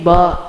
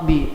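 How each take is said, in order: First: The letter is said with an 'ah' vowel. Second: The letter is said with an 'ee' vowel. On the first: This is how Indonesian speakers name the letter. "you guys pronounce" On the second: This is how Urdu speakers name the letter. "We we just we say B"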